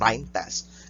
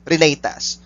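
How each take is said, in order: First: The first word sounds like 'Rhine'. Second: The first word does not sound like 'Rhine'. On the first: The speaker calls it wrong. "Some of you will pronounce this as Rhine test" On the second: The speaker calls it right.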